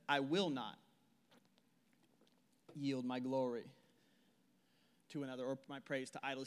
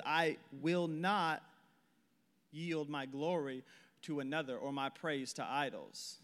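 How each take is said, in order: First: Soft, low, with long pauses between phrases; dramatic slow reading. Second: Very slow "I will not", leaning on not; stress on not. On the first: Preacher reading God's words to the church, hushed with long pauses. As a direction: let each phrase hang. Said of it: "Check this out". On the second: Preacher stressing God's refusal to the church, slow and firm. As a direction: drag out not, then pause. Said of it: "He says". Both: Shown as a demonstration.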